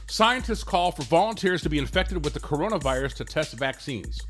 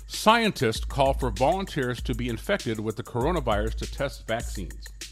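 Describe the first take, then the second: First: The sentence is read at a normal, faster pace. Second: The sentence is read at a noticeably slower pace.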